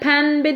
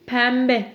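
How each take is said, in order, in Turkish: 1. B'den önce n sesi gelir. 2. B'den önce m sesi gelir.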